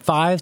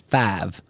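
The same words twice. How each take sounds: First: It is said in a more standard accent. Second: It is said in a Southern-sounding accent. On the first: "they went from five" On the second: "my accent is starting to shift a little bit"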